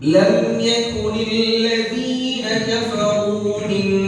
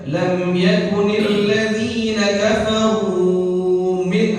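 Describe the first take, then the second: First: The long vowels are held for two counts only. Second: The long vowels are stretched beyond two counts. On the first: The speaker calls it right. "mad asli" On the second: The speaker calls it wrong. "lebih dari kadar dua haro, harokat"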